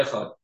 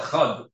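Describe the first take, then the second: First: "Echad" ending in a t-like sound instead of a d; Echad without Dalet. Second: "Echad" finished on a clearly voiced d; Echad with clear Dalet. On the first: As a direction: let the last consonant of "Echad" harden to a t. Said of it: "It doesn't sound like a Dalet". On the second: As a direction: put the tongue firmly into the final d of "Echad". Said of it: "it has to be that your tongue". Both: Shown as a demonstration.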